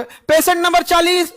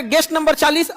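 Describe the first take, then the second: First: पेशेंट नंबर चालीस called high and slow; drawn-out, raised-pitch पेशेंट नंबर चालीस; impersonal call-out. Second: Said in the usual way. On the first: Shown as a demonstration. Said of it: "उसको कैसा लगे". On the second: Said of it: "ऐसे बोलोगे".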